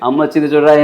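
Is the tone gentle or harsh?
harsh. It is said in a harsh, scolding, pressuring tone. The child is being pressured and frightened. The speaker calls it wrong.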